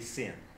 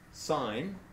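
First: The vowel is short, like in pin. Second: The vowel is long, like in pine. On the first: The speaker calls it wrong. "But we don't say sin" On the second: The speaker calls it right. "but is pronounced sine"

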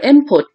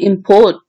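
First: The stress is on the first syllable. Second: The stress is on the second syllable. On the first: It is a noun or describing word. "So this syllable M is stressed" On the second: It is a verb. "This port is stressed"

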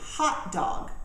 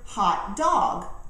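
First: The stress falls on the word hot. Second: The stress falls on the word dog. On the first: A sausage in a bun to eat. The speaker calls it right. "put the stress on the word hot" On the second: A dog that has become overheated. The speaker calls it wrong. "in the traditional manner with the stress on the noun"

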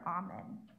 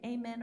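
First: The first vowel sounds like in 'almond'. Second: The first vowel sounds like in 'amend'. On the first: "or almond" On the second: "It's like amend"

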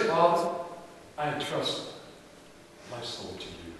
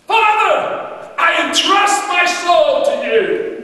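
First: It is said quietly and weakly. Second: It is said loudly and strongly.

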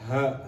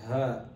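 First: The throat sound is pushed out with heavy force. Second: The throat sound is made deep but without strain. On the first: The speaker calls it wrong. "They'll be like, ha, ha, that's too much" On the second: The speaker calls it right. "Just say"

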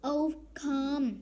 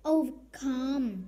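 Both takes have the same delivery.

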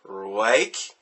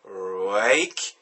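First: The word starts with a slurred R sound. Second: The same.

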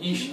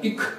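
First: It is said in standard German. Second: It is said in a Berlin dialect. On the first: This is the standard form. "Не «ich»" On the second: This is how Berliners say it. "а «ich»"

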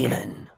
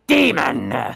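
First: It is said calmly. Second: It is said angrily.

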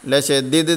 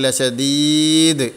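First: The vowel after the first d is short. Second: The vowel after the first d is long. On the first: The speaker calls it wrong. "ലഷദീദ് എന്നല്ല പറഞ്ഞത്" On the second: The speaker calls it right. "ദാലിനെ നീട്ടി ഓതണം"

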